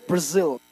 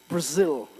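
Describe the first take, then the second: The two takes are said the same way.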